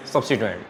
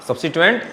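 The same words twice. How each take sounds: First: Quiet murmured substituent echo; soft echo. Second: Said in the usual way. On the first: Shown as a demonstration. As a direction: lower and softer repeat of substituent. Teacher echoes answer softly.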